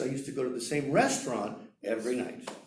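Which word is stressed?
restaurant. The word restaurant carries the main stress. It was a restaurant, not a bar. "not the same bar"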